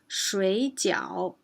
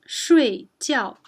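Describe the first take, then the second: First: Both syllables have a low dipping pitch. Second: Both syllables have a sharp falling pitch. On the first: It means dumplings. "two third tones, it means dumplings" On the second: It means to sleep. "both fourth tones, it means to sleep"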